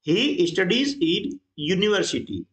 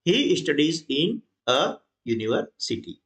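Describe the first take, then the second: First: Each word read out slowly; slow, deliberate classroom reading; slow dictation. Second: Each word read out slowly with the a; slow, deliberate classroom reading; slow dictation. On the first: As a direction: spell the sentence out slowly for students. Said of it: "इसका उच्चारण किससे हो रहा है?". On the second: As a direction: spell the corrected sentence out slowly. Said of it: "तो ये आ गया". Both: Shown as a demonstration.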